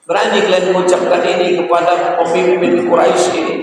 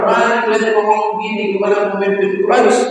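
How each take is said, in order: First: High indignant rebuke; Abu Bakar's rebuke. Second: Fast, high, sing-song indignation; Abu Bakar's rebuke. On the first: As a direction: scold them, raised high. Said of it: "Apa kata Abu Bakar?". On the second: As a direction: rattle off a high scolding. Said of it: "Oh, kata Abu Bakar". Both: Retold or imitated.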